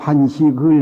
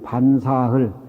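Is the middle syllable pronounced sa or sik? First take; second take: sik; sa. First: The middle syllable is pronounced sik. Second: The middle syllable is pronounced sa. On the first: The character is read as a noun. The speaker calls it wrong. "그건 틀리게 발음한 겁니다" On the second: The character is read as a verb. The speaker calls it right. "동사할 때는 사로 발음이 되고"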